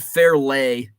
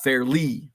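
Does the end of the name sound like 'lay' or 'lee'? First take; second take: lay; lee. First: The name ends with a 'lay' sound. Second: The name ends with a 'lee' sound. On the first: The speaker calls it wrong. "I said Fairlay" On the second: The speaker calls it right. "and it's Fairly"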